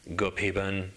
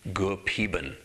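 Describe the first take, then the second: No difference in how they are said.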